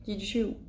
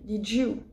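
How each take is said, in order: First: The d and y merge into a 'j' sound. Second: The same.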